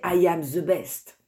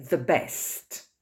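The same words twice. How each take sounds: First: English in a thick French accent, the TH in «the» said as Z. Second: «the best» said slowly with a proper English TH in «the»; careful English. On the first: Teacher showing students a French-accented English phrase, heavy French accent. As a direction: say «I am the best» the way French speakers do, «the» as «ze». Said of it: "avec l'accent français". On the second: Teacher modelling correct pronunciation for students, slow and careful. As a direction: model «the best» slowly and clearly with a real TH sound. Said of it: "correct model after accented version".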